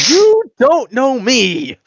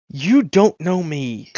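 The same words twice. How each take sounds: First: Very high, loud, drawn-out indignation; hammed-up outrage, every word stretched; outraged. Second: Slow, higher-pitched wounded pride; affronted disbelief. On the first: Braggart repeats himself to the unimpressed creature, outraged. Affronted character escalates the repeat. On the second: Acted. Braggart to a creature who doesn't know his name, affronted. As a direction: draw it out, offended.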